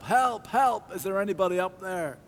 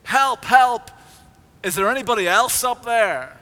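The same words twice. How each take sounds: First: High calls up the cliff for help; a man dangling from a cliff calls for help, high and strained; calling for help. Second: Much louder, much higher yelling for help; desperate shout. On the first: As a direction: cry out upward to be heard. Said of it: "to shout out for help". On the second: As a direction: bellow it up the cliff in panic. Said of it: "until Jack shouted". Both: A narrator's reading.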